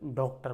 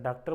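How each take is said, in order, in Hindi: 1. पहला स्वर खुला 'aw' ध्वनि है। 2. पहला स्वर सादा 'aa' ध्वनि है। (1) "ये औ लगा के बोलो" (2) "आप डॉक्टर बोले"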